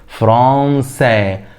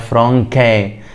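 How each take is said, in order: First: The middle consonant is an s sound. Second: The middle consonant is a k sound. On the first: The speaker calls it right. "ينطق سا" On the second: The speaker calls it wrong. "ما ينفعش اقولها فرانكا"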